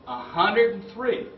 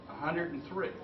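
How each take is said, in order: First: Higher, louder, slow amazed repeat; stunned. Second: Said in the usual way. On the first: Real, not acted. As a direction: echo the number in disbelief. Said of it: "I was stunned". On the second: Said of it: "He looks at me and he says".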